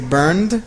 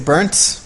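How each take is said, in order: First: The word ends with a D sound. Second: The word ends with a T sound. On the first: "and some people say burned" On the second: "some people are going to say burnt with a T"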